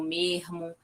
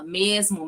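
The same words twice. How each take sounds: First: Mermo with the s as a breathy h, softer; glottal s. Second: Said in the usual way. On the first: Shown as a demonstration. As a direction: say mermo, the s turned into a soft h. (mermo com s aspirado, mais baixo) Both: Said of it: "a questão do zan, né, que aí os exemplos".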